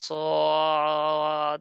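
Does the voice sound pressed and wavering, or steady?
pressed. The voice is pressed in the throat and wavers. The speaker calls it wrong. "এরকম গলায় চাপ না হয় এবং লড়াচড়া না হয়"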